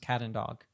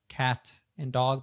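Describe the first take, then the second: First: The T in cat is a soft D-like tap. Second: The T in cat is a crisp T.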